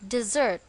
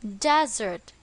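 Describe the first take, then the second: First: The stress is on the second syllable. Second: The stress is on the first syllable. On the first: It is a verb meaning to abandon someone. "On the second syllable" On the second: It names a dry place with little vegetation. "On the first syllable"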